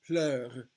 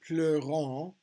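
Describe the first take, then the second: First: The final ending is left silent. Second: The final ending is pronounced aloud. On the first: The speaker calls it right. "the ent is just silent" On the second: The speaker calls it wrong. "it's not pleurant"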